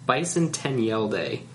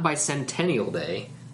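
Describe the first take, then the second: First: It is said as separate words bison, ten, yell. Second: It is said as the ordinary word bicentennial. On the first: The speaker calls it right. "Bison, space 10, as in like the number 10, space Yell Day" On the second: The speaker calls it wrong. "Not Bicentennial Day"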